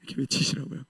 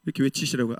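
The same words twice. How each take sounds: First: 외치시라고요 breathed as a whisper; whispered aside. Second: Said in the usual way. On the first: Real, not acted. Preacher whispering a playful aside to the congregation. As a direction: drop the voice to a whisper.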